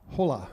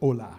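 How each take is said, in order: First: The word begins with an audible H sound. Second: The word begins without any H sound. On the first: The speaker calls it wrong. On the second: The speaker calls it right.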